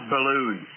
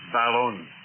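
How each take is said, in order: First: It is said like the word balloon. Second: It starts like 'bal' in balanced. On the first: The speaker calls it wrong. "It's not balloon" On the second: The speaker calls it right. "it's ballon. Balanced, unbalanced. Hence the word ball-on"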